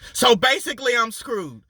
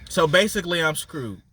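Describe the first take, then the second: First: It is said at a higher volume. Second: It is said at a lower volume. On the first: "it gets a little louder" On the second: "with the volume going up by five every time"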